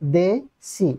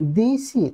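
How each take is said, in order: First: The first vowel is a lower 'e' sound. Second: The first vowel is a high 'i' sound. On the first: "একবার নিচে থাকছে এবং আর একবার উপরে যাচ্ছে" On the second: "এবার আমাদের উচ্চারণ করছি দিসি"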